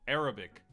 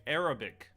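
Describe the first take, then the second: No difference in how they are said.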